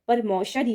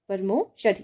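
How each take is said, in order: First: परमौषधि with an open au, par-mau-shadhi; परमौषधि, au vowel clearly; परमौषधि said the correct way with au; correct pronunciation. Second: परमोषधि with a plain o, par-mo-shadhi; परमोषधि, o vowel as the mistake; परमोषधि said slowly with o; wrong pronunciation. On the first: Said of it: "परमौषधि होगा". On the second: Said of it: "परमोषधि नहीं". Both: Shown as a demonstration.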